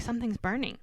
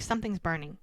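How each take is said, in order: First: "Something's burning" pitched up, more urgent; insistent repeat. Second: Said in the usual way. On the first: Retold or imitated. Woman repeating "Something's burning" to a puzzled boyfriend, insistent. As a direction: push "Something's burning" higher to get it across. Repeats it after his what.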